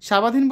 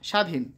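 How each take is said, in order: First: A 'b' sound follows the first consonant. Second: No 'b' sound follows the first consonant. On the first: The speaker calls it wrong. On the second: The speaker calls it right.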